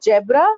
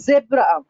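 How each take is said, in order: First: "zebra" as JEB-ra; "zebra" with J for Z, rising; wrong pronunciation. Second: "zebra" as ZEB-ra, buzzing Z; "zebra" with Z, falling; correct pronunciation. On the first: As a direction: start "zebra" with a J sound. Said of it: "It's not zebra". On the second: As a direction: start "zebra" on a true Z. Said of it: "Z, Z sound". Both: Shown as a demonstration.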